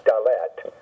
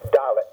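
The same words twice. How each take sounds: First: "dalet" stressed on LET; stress on second syllable. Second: "dalet" stressed on DA; stress on first syllable. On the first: Teacher showing the mistaken accent, da-LET. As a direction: push the stress to the end of "dalet". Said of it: "not dalet". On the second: Teacher modelling the Hebrew letter name, DA-let. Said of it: "accent's always gonna fall on the first syllable". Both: Shown as a demonstration.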